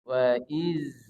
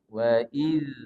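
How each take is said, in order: First: The last consonant is a 'z' sound. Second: The last consonant is a soft 'th' sound. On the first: The speaker calls it wrong. "berbunyi dia z. Maka dia tidak tepat" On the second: The speaker calls it right. "jadi keluarkan sedikit"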